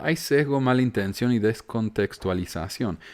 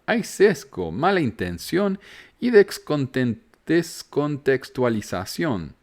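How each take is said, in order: First: Said in the usual way. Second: Slow, much higher, every word stretched out; leaning hard on "sesgo" and "mala intención" to mock the critic; mocking emphatic read. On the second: First reading of critic's message. (leído con énfasis burlón y lento)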